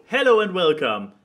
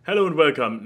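First: Loud, high podcast host "Hello and welcome."; show opening greeting. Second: Louder podcast host "Hello and welcome."; a hint of announcer intro; show opening greeting. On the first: Retold or imitated. Quoting the podcast intro to co-hosts, lightly announcer-like. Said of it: "actually the opening of this show". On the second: Quoting the podcast intro again, lightly announcer-like. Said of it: "This is".

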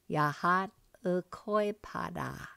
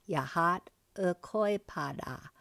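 First: "Yahat ukoipada" drawn out slowly, syllable by syllable; slow it right down so learners can follow; careful slow model for the class; slow teaching repeat. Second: Said in the usual way. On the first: Shown as a demonstration. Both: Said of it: "So let's repeat those".

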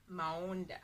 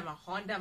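First: "Maunda" said carefully as MAUN-da, two clear syllables; correct name pronunciation. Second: "Mahonda" with an added h, ma-HON-da; wrong name pronunciation. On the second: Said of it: "I don't want to hear Mawanda". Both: Shown as a demonstration.

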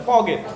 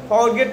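First: ফরগেট with silent R, "fo-get"; corrected pronunciation. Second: ফরগেট with the R sounded, "for-get"; wrong pronunciation. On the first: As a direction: drop the R from ফরগেট. (ফরগেট, 'র' বাদ দিয়ে 'ফগেট') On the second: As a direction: pronounce the R in ফরগেট. (ফরগেট, 'র' স্পষ্ট উচ্চারণে) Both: Shown as a demonstration. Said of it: "তো নয় কথাটা".

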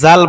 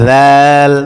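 First: ZAAL with a plain buzzing z; জাল as a simple z word; wrong zaal. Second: জাল as a long, held DHAAL; correct dhaal. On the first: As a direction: say জাল with an ordinary z. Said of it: "জাল বলা যাবে না". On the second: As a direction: say জাল with tongue-tip dh, stretched. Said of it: "বলতে হবে". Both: Shown as a demonstration.

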